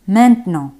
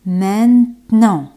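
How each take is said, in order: First: "Maintenant" joined up in two quick syllables; connected version of "Maintenant"; natural-pace word model. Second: "Maintenant" slowly split in two, main-tenant; drawn-out teaching version of "Maintenant"; slow syllable model. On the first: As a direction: say "Maintenant" in one piece. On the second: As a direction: pause in the middle of "Maintenant". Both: Shown as a demonstration. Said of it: "En francés es maintenant".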